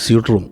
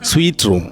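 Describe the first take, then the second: First: The first word sounds like suit. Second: The first word sounds like sweet. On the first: The speaker calls it wrong. "അത് മിക്കവാറും നമ്മൾ പറയുന്നത് സ്യൂട്ട് room എന്ന് പറയും" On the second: The speaker calls it right. "it should be sweet"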